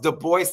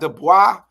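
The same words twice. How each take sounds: First: The name is said with an English pronunciation. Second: The name is said with a French pronunciation. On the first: The speaker calls it right. "it is pronounced Du Bois" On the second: The speaker calls it wrong. "not Du Bois"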